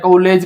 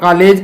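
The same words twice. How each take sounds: First: The first vowel is a plain au sound. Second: The first vowel is a plain open aa. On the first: "न कॉलेज कहते हैं" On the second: "न तो हम कॉलेज कहते हैं"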